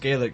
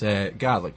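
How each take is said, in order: First: It does not sound like garlic without R. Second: It sounds like garlic without the R. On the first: This is how people over here say it. "as people refer to it over here" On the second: This is how people back home say it. "but back home it's Gaelic"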